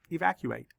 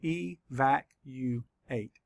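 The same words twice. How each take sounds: First: Said in the usual way. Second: Slow, each syllable pulled apart. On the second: Shown as a demonstration. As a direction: sound out each syllable slowly. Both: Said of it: "Let's count the syllables".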